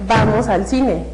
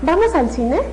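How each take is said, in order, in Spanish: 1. Suena a afirmación firme, contundente. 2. Suena a pregunta, con subida al final. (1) "Y hasta con golpe" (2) "hacer una pregunta"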